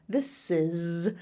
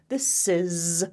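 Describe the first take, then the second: No difference in how they are said.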